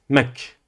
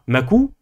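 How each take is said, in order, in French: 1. Le k n'est suivi d'aucune voyelle. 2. Le k est suivi de la voyelle u. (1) "Vous dites mak. Pas de voyelle" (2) "Vous ne dites pas makou"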